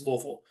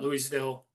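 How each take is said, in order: First: The syllables are slurred together mushily. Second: Each syllable is said crisply and fully. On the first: The speaker calls it right. "Like you got peanut butter on the roof of your mouth" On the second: The speaker calls it wrong. "It is not Louisville"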